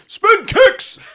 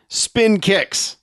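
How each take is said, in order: First: It is shouted loudly with great energy. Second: It is said in a calm reading voice.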